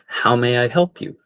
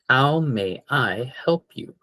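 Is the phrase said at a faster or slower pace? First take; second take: faster; slower. First: It is said at a quicker pace. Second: It is said at a slower, careful pace.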